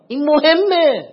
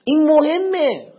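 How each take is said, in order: First: Slow and louder, مهمه drawn out and falling; stress on مهمه. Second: Slow and louder, این hit first and high; stress on این. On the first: Preacher to congregation, hammering مهمه slowly. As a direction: lean on مهمه high. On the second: Preacher repeating to congregation, leaning on این. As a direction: punch این before مهمه. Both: Shown as a demonstration.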